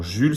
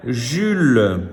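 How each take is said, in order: First: Said in the usual way. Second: "Jules" higher and drawn out; word reading. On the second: Shown as a demonstration. Teacher reading words to pupils, deliberate "Jules". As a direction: stretch "Jules" as one deliberate sounded-out word. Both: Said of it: "Je lis des mots".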